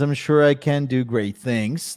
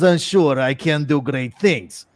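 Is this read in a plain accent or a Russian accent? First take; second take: plain; Russian. First: It is read in the speaker's normal accent. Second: It is read in a put-on Russian accent.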